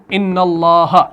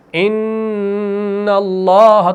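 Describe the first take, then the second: First: Said in the usual way. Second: ان اللہ with the نون held long through the nose; ان اللہ recited with a long nasal hum on the نون; nasal ghunna. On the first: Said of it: "تو ہم اس کو کیسے پڑھیں گے؟". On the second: Shown as a demonstration. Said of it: "جو ہم نے ام والا ساؤنڈ کر دیا".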